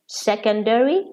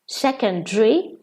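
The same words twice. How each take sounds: First: It is said with an American pronunciation. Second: It is said with a British pronunciation.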